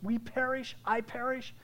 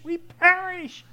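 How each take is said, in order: First: Said in the usual way. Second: "we perish" cried slow, high and loud; slow, high, loud terrified "we perish"; panicked cry. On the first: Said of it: "Just like those disciples". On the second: Retold or imitated. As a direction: wail "we perish" as if drowning. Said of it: "the disciples are all panicking".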